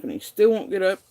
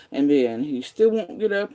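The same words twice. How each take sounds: First: Still, said higher and louder in exasperation; angry repeat. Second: Angry complaint. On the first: Venting that her partner still won't get up, exasperated and louder. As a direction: hammer the repeated "still" harder. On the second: Repeating complaint, escalating. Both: Real, not acted.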